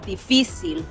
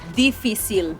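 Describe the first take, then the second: First: The stress falls where native Spanish speakers place it. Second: The stress falls where English speakers misplace it. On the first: The speaker calls it right. "instead of difícil" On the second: The speaker calls it wrong. "difícil instead of"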